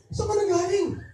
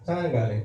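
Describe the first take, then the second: First: It is said in a frightened, worried tone. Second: It is said in a mildly angry tone. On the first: The speaker is worried the person is hurt. "So fear, ngayon 'di ba? Hindi ka na galit" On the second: The speaker is annoyed at the person's lateness. "yung galit pero hindi masyadong galit"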